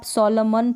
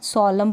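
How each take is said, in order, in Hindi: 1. शब्द का अंत एक साफ़ सुनाई देने वाली न ध्वनि से होता है। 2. शब्द का अंत म की ध्वनि पर होता है। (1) "इसको भी आप सोलमन पढ़ते हो नहीं ना" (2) "सोलम पढ़ते हैं"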